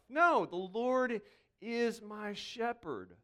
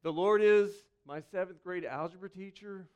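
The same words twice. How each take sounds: First: Slow and deliberate correction of the line; the pastor corrects his joke, slow and reverent; slow correct version. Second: A mock misquote of the psalm in an everyday tone; a pastor jokes with the congregation, plain mock misquote; joking wrong version. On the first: Shown as a demonstration. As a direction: set it right, slowly and firmly. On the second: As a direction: toss off the wrong line as a joke. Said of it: "It doesn't start".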